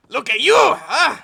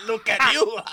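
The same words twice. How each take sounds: First: Put-on loud, high Mexican accent breaking into laughter. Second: Put-on loud, high Mexican-accented taunt. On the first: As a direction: taunt him again in an overdone Mexican accent. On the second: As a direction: size him up in a hammy Mexican accent. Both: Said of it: "I can't do the accent".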